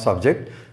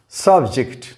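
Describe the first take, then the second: First: The stress is on the second syllable. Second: The stress is on the first syllable. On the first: The speaker calls it wrong. "not subject" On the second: The speaker calls it right. "The stress is on the first syllable"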